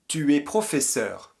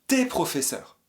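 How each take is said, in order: First: The pronoun is said as a full separate syllable. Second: The pronoun is contracted into the verb. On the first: This is the formal way to say it. "de manière académique" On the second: This is the casual way to say it. "De manière familière"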